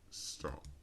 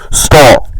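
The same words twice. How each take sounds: First: It is said with mild emphasis. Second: It is said with strong emphasis.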